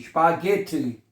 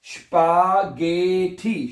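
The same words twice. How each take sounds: First: Said in the usual way. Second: स्पागेठी very slowly, गे stretched and lifted; sounding out. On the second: Shown as a demonstration. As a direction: teach स्पागेठी syllable by syllable. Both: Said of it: "क्या बनेगा".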